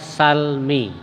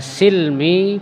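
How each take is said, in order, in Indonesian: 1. Vokal pertama adalah bunyi 'a'. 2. Vokal pertama adalah bunyi 'i'. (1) "bisa dibaca salmi" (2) "Bisa dibaca silmi"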